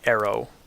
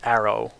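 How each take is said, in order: First: The first vowel is merged before the r. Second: The first vowel keeps its distinct traditional sound. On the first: Most Americans say it this way. "many Americans would pronounce arrow as a merger of these sounds" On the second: This is the traditional way, as in England, Ireland and Australia. "in New York City I have arrow, which is the traditional pronunciation"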